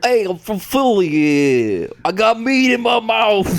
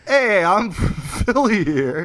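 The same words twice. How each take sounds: First: Loud mock Philly accent; louder, rougher Philadelphia accent attempt. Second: Put-on slow, drawn-out Philly accent; hammed-up Philadelphia accent, slow. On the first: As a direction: bellow it in a hammed-up Philly accent. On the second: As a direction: lay on a thick Philly accent. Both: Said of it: "I can't do the Philly accent".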